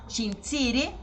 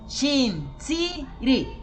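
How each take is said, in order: First: The word is said smoothly as one unit. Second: The word is split with pauses between syllables.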